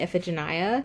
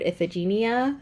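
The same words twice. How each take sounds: First: "Iphigenia" said as "if-uh-juh-NYE-uh"; "Iphigenia" with a long "nye" ending; first pronunciation. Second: "Iphigenia" said as "if-uh-zhi-NEE-uh"; "Iphigenia" with a soft "zh" and "nee" ending; other pronunciation. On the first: Vlogger naming her own reading pronunciation, calm. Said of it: "I was pronouncing it Iphigenia". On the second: Vlogger giving the version she has heard, calm. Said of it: "I've also heard Iphigenia". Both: Shown as a demonstration.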